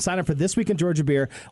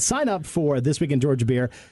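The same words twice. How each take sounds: First: It is said in his normal voice. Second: It is said in a put-on announcer voice.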